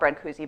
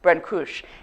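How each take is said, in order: First: The name is pronounced in an English way. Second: The name is pronounced in a Romanian way. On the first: "I'm going to call him Brancusi" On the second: "if I were really Romanian, it probably should be something more like"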